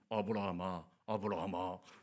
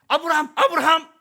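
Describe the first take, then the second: First: It is said slowly and solemnly. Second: It is shouted loudly and urgently.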